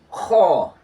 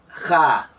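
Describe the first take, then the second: First: The vowel is a rounded, heavy o sound. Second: The vowel is a light, open a sound. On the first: The speaker calls it right. "This is ho" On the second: The speaker calls it wrong. "not ha"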